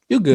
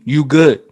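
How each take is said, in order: First: It sounds relaxed and forgiving. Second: It sounds threatening and confrontational. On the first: The other person is forgiven. "like you're forgiven. Like, oh my bad" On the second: The speaker is ready to fight. "as in we're about to fight"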